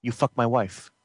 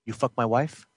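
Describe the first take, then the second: First: Low, quiet, statement not question; flat menacing demand. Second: Low, quiet, cold menace; menacing low question. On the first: Jealous brother repeats the accusation as a cold statement. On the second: Jealous brother quietly accuses him, low menace. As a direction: ask it low and threatening. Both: Acted. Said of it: "End scene".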